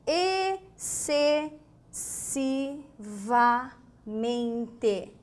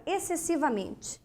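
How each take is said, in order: First: Excessivamente stretched out very slowly, each syllable held. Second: Said in the usual way. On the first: Shown as a demonstration. Teacher stretching Excessivamente slowly for the class. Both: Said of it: "Palavra interessante".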